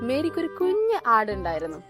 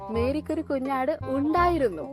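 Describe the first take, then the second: First: The word കുഞ്ഞ് carries the emphasis. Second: The word ഉണ്ടായിരുന്നു carries the emphasis. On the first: The lamb was small and cute. "ഒരു cute ആട് അല്ലെ" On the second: Mary had it once but not anymore. "ഇപ്പൊ ഇല്ല അല്ലെ"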